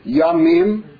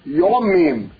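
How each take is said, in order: First: The first vowel is an open 'a' sound. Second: The first vowel is a rounded 'o' sound. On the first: This is the modern Hebrew pronunciation. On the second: This is the pronunciation of another old tradition.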